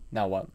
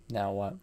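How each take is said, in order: Both takes have the same delivery.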